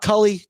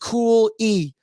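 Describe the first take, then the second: First: The first vowel is short, as in 'cull'. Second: The first vowel is long, as in 'cool'. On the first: The speaker calls it wrong. "not Cully" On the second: The speaker calls it right. "It is Cool E"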